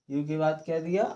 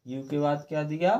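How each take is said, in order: Both takes have the same delivery.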